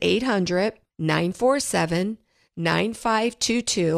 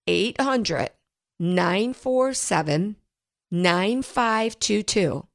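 First: The number is read at normal speed. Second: The number is read slowly.

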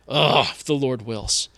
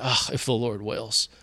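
First: It sounds resentful, like bitter complaint. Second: It sounds resigned, like giving up.

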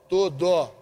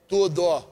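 No difference in how they are said.

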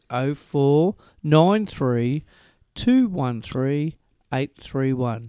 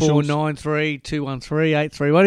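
First: The number is said slowly. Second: The number is said at normal, quick speed.

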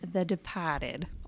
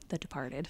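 First: It is said in a Boston accent. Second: It is said in a plain accent.

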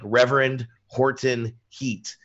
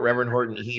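First: The name is said slowly and clearly. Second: The name is said quickly and runs together.

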